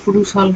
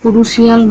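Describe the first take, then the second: First: The ending is a single light 'shul' syllable. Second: The ending is drawn out as 'shee-al'. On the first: The speaker calls it right. "শলটা হালকা করলে কুরুশল হবে" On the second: The speaker calls it wrong. "কুরুশিয়াল না বলে"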